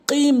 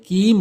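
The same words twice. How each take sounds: First: কিম starting on a back-of-tongue q; correct qaf. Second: কিম with an ordinary front k; wrong, kaf for qaf. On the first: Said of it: "কিম বলতে হবে". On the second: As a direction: say কিম with a simple k sound. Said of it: "কফটা অনেকেই ভুল উচ্চারণ করে কাফ উচ্চারণ করে". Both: Shown as a demonstration.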